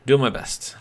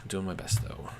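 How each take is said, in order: First: Loud, higher burst. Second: Said in the usual way. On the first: Real, not acted. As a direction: call it out loudly.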